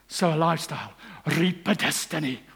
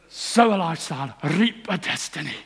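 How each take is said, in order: First: It is said in a Scottish accent. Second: It is said in a Derby accent. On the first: The speaker calls it right. "which is great in a Scottish accent" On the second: The speaker calls it wrong. "not so good in one from Derby"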